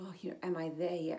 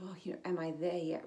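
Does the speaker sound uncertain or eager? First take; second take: uncertain; uncertain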